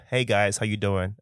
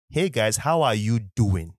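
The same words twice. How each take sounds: First: Said in the usual way. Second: Slow, measured Nigerian English; slow right down into a Nigerian accent. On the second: Shown as a demonstration. Podcaster showing his other self to listeners, Nigerian accent. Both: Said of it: "like, two people inside of me".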